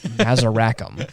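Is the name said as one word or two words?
one word. The name runs together as one word. It sounds like a single futuristic alien name. The speaker calls it wrong. "I thought his name was Mazurackham"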